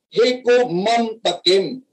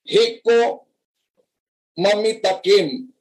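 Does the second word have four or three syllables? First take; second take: three; four. First: The second word has three syllables. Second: The second word has four syllables. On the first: The speaker calls it right. "Ang tamang pronunciation para" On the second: The speaker calls it wrong. "sino ngayon ang nagkawindang-windang"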